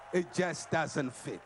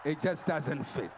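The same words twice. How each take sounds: First: "It just doesn't fit" spelled out slowly, each word hit; slow, weighty restatement of "It just doesn't fit"; slow emphatic repeat. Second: Said in the usual way. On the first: Shown as a demonstration. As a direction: drive the point home, slowly and firmly.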